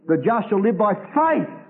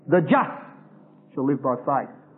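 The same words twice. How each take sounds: First: The stress falls on the word faith. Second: The stress falls on the word just. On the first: Faith is the point. "because faith is the all-embracing quality" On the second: Being justified is the point. "Because Galatians is dealing with those who are justified by faith"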